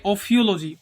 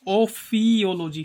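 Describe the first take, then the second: First: Said in the usual way. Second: ओफियोलॉजी slowly split as ओ-फी-ओलॉजी, long फी; slow breakdown. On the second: Shown as a demonstration. Teacher setting up the snake-hiss trick, ओफियोलॉजी slowly split at फी.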